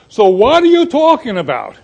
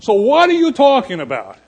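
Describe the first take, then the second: First: Lightly Italian-flavoured question; a hint of an Italian accent on the question; mild Italian accent, louder. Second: Said in the usual way. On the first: Shown as a demonstration. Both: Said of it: "my Italian's coming out".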